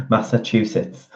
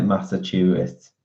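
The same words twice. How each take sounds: First: Massachusetts with a tongue-twisted, mangled middle; her own Massachusetts. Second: Massachusetts said cleanly, the way it sounds on TV. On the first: Trying to say Massachusetts her own tangled way. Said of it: "That's how I say it". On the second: Showing how TV says Massachusetts. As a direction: copy the TV Massachusetts. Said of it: "On T V, it sounds like that". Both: Shown as a demonstration.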